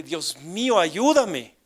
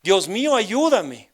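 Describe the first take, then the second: First: Said in the usual way. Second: Louder, higher imitated cry for help; retold desperate cry. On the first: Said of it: "Pero no así. No quiero gritar ahorita". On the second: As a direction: call out to God, stopping short of a scream. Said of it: "pero como grité esa, esa tarde". (grito de súplica imitado)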